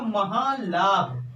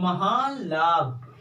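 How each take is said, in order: First: The n becomes a nasalized l sound. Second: The n becomes a nasalized l sound.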